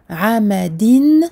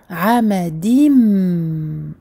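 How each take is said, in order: First: The word ends with an n sound. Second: The word ends with an m sound. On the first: The speaker calls it wrong. "au lieu de dire amadin" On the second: The speaker calls it right. "nous allons dire amadim avec un mime"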